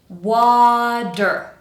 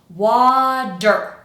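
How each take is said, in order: First: The middle consonant is a long, exaggerated D. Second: The middle consonant is a long, exaggerated D.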